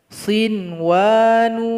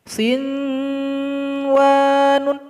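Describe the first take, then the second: First: The nun is read clearly without a nasal hum. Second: The nun is read with a held nasal hum. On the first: The speaker calls it right. "mesti dibaca jelas" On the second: The speaker calls it wrong. "nggak boleh dibaca dengung. Sinwanun, nggak, itu salah"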